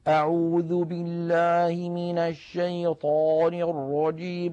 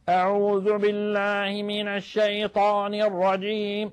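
First: It sounds chewed, as if the mouth is full. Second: It sounds pressed hard from the back of the throat.

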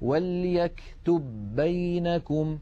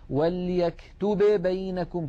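First: The first b merges into one doubled b. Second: The two b sounds are pronounced separately. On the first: The speaker calls it right. "لابد من إدغام الباء الأولى في الثانية، فنقول" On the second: The speaker calls it wrong. "ليس أحد من العرب يقول"

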